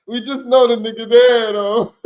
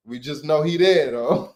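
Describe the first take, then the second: First: Amused louder retake; loud laughing repeat. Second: Said in the usual way. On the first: Real, not acted. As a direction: punch it up louder through a laugh. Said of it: "repeats louder, laughing". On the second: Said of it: "first plain take".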